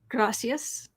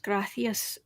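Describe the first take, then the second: First: It is said with a plain s sound. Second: It is said with a lisped th sound. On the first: "in Mexico" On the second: "in Spain"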